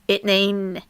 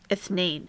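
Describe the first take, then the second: First: The middle consonant is a plain 't' sound. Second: The middle consonant is a soft 'th' sound. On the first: This is how it is said in Egypt. "We don't say th- th- in Egypt. We say it" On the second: This is the classical, standard form. "Salah will say ithnain"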